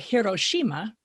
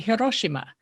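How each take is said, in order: First: The stress is on the second-to-last syllable. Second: The syllables are stressed evenly. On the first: This is how Americans say it. The speaker calls it wrong. "Americans will say Hiroshima because we're used to stressing the second to last syllable" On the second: This is how Japanese speakers say it. The speaker calls it right. "the Japanese will say Hiroshima"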